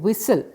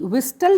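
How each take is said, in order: First: The word is said with no t sound. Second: The word is said with a t sound. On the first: The speaker calls it right. "हम बोलते हैं विसल" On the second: The speaker calls it wrong. "विस्टल नहीं बोलते हैं"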